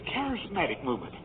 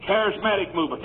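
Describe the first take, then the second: First: Much softer, lower, dropped announcement; mock preacher, quiet. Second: Said in the usual way. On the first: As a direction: say it under your breath as another preacher would. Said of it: "a preacher gets up and he says". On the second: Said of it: "Number two".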